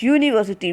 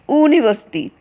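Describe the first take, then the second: First: The word begins with a Y sound. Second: The word begins with a plain vowel sound. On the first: The speaker calls it right. "We call it university, which sounds Y" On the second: The speaker calls it wrong. "we do not call it university"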